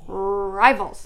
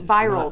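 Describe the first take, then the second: First: The word begins with an R sound. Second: The word begins with a V sound. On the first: The speaker calls it right. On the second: The speaker calls it wrong.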